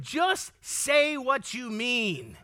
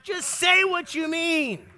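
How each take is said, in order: First: Very slow, each word spaced; slow and measured. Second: Louder, slower, pressing each word; emphatic plea. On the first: Preacher stating the advice, slow and measured. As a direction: lay it down slowly. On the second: Preacher urging listeners to speak plainly, emphatic. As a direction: plead for bluntness with force. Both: Shown as a demonstration.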